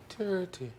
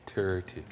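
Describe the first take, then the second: First: Put-on high, lilting Irish accent. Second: Said in the usual way. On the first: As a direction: say it like a quiet Irishman. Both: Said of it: "it's like an Irish accent".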